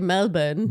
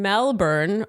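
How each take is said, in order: First: It is said with the local Australian pronunciation. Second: It is said with the speaker's usual pronunciation.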